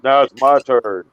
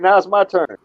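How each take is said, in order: First: It is said in a very deep voice. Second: It is said in a normal voice.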